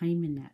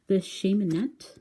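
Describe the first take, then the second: First: It starts with a soft k sound. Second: It is said French-style, starting with an sh sound. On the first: The speaker calls it right. "it's like not like a real hard K" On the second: The speaker calls it wrong. "I just kind of pronounce it French"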